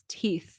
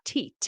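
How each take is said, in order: First: The word ends with a th sound. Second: The word ends with a t sound. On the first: The speaker calls it right. "it's teeth" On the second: The speaker calls it wrong. "It's not teat"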